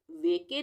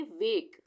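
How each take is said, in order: First: वेके said in two syllables, ending in a clear "ay"; wrong pronunciation. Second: वेक as one syllable ending on k; silent final e. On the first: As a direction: sound the final e in वेके. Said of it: "नहीं पढ़ेंगे इसको". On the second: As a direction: close वेक on the k, no vowel after. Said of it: "हम पढ़ेंगे वेक". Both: Shown as a demonstration.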